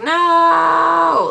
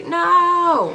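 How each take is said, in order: First: High defiant shout of no; kid yelling no. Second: Put-on kid yelling no again. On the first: Retold or imitated. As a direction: yell it like a stubborn kid refusing. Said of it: "he's like". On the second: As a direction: shout no back like the stubborn kid. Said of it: "that's what he".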